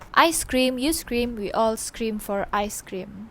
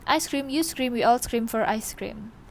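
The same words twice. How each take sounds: First: It is said at a slower pace. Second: It is said at a faster pace.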